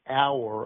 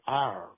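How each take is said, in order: First: It is said with a General American accent. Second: It is said with a Southern Texas accent. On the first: The speaker is trying to blend in. "instead of saying our" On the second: The speaker's native accent slips out. "I said our. It was just a natural reaction"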